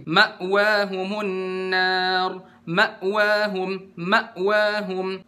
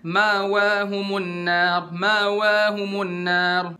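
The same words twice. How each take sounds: First: Slow recitation, "ma'wahum" with a firm glottal stop after ma; clear hamzah sukun. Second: Slow chant of "Ma'wahumun nar" with the hamzah glossed over; unclear hamzah sukun. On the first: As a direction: cut the sound sharply at the hamzah in "ma'wahum". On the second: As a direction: run Ma into wa in "Ma'wahumun" without a glottal stop. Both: Shown as a demonstration. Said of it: "Harus diperjelas di hamzah sukun ini".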